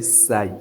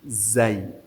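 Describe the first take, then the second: First: The word begins with an S sound. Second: The word begins with a Z sound. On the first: The speaker calls it wrong. "do not say Sai" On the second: The speaker calls it right. "you pronounce it Zai"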